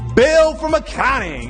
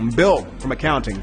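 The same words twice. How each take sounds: First: It is said in an excited, lively way. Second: It is said in a flat, plain way. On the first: "it sounds a little bit more lit" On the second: "Take a super boring name like"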